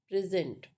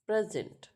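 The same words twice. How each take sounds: First: Pri-ZENT, second syllable stressed. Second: PRE-sent, first syllable stressed. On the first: Teacher showing the verb for give, "present" stressed on its second syllable. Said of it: "is on zent". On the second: Teacher showing the noun for gift, "present" stressed on its first syllable. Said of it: "stress mark in on P". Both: Shown as a demonstration.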